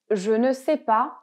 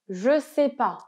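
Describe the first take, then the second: First: The word 'ne' is pronounced. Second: The word 'ne' is left out. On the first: This is the full form used in writing. "à l'écrit, on met toujours ne pas" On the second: This is the usual spoken form. "À l'oral, et là, c'est quasiment systématique"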